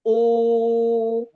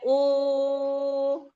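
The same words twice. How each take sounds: First: The vowel is pronounced heavy and thick. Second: The vowel is pronounced thin and light. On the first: The speaker calls it wrong. "kadang kelepasan jadi tebal" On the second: The speaker calls it right. "harusnya u, tetap dijaga ketipisannya"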